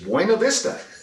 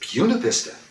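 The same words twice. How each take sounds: First: It is pronounced with Spanish vowels. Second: It is pronounced with an anglicized local sound. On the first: This is how the name is said elsewhere. "I can speak Spanish" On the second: This is how the name is said in Virginia. "Here it's Buena Vista"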